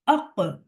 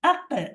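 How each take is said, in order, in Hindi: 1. q ध्वनि भारी और भरी हुई है। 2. q ध्वनि पतली और हल्की है। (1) "मोटे हुरूफ़ को क़लक़ला के वक़्त भी मोटा ही रखा जाता है" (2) "क़लक़ला तो किया, लेकिन क़ाफ़ को बारीक कर दिया"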